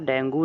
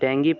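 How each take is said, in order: First: The word ends with an oo vowel sound. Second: The word ends with an ee vowel sound. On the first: This is how it is said in Hindi. The speaker calls it wrong. "डेंगू नहीं बोलते, डेंगू जो है actually में वो हिंदी में बोला जाता है" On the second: This is how it is read in English. The speaker calls it right. "डेंगी पढ़ते इसको"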